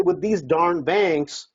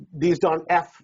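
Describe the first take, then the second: First: Slow, careful "With these darn banks"; "darn" eased out slowly in place of a curse; polite rephrase. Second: Said in the usual way. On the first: Shown as a demonstration. A coach showing a seller the polite way, slowly. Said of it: "So you say". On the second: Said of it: "Don't say".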